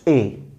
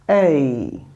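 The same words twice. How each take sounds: First: The vowel stays steady without gliding. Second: The vowel glides from a high to a lower pitch. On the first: The speaker calls it wrong. "not A" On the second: The speaker calls it right. "starts from the high pitch and lowest tone"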